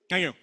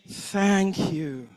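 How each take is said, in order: First: It sounds curt and annoyed. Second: It sounds warm and loving.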